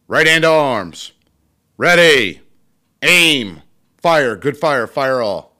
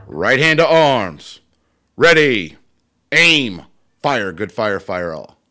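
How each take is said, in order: First: Loud barked toast commands, steady and high; barked firing squad commands. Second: Loud barked military toast commands; barked firing squad commands. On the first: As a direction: bark the drill orders to the hall. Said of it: "I will toast him as well". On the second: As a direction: bark each command like a drill leader. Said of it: "I'm gonna recite it anyway". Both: Shown as a demonstration.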